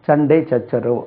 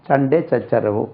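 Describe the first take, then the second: Both takes have the same delivery.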